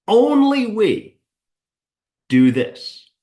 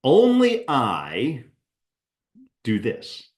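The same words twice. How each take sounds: First: ONLY punched much higher and louder, slow; emphatic stress on ONLY. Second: Said in the usual way. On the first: Shown as a demonstration. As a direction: hit the word ONLY hard and high like a slogan. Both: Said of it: "Fill in the blank".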